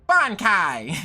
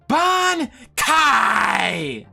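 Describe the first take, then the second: First: It is said flatly, with little force or energy. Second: It is shouted loudly with strong, clear enunciation. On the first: The speaker calls it wrong. "it's not as impactful as the sub" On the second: The speaker calls it right. "They, like, really enunciate and scream it"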